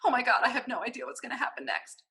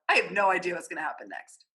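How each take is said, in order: First: It is said in a worried, nervous way. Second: It is said happily, with a smile.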